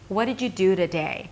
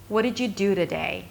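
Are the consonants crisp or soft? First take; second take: soft; soft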